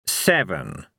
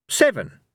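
First: Slow, godly echo of SEVEN; Fate, unruffled. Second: High, quick call of SEVEN; SEVEN pitched up high, then falling; Cohen, confident. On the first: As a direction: say SEVEN with measured gravity. Fate echoes Cohen's call. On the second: Cohen calls his dice throw. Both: Acted.

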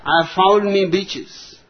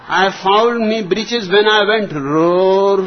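First: Said in the usual way. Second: Higher and louder punchline; exasperated shout. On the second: Acted. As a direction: shout it out, fed up. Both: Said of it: "stuttered the old colonel".

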